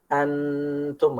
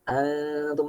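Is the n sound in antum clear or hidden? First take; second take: clear; hidden. First: The n is fully articulated with a long nasal hum. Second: The n is only nasalized without full tongue contact. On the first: The speaker calls it wrong. "ini nempel kan, jadi idhar" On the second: The speaker calls it right. "mendekat ke makhraj huruf nun. tapi nggak nempel"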